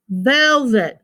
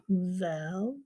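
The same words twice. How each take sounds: First: Said in the usual way. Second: VELVET softly, with "vel" and "vet" apart; split into syllables. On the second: Shown as a demonstration. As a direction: divide "velvet" into two low, separate beats. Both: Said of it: "this we're gonna divide in between".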